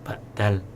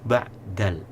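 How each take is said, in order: Both takes have the same delivery.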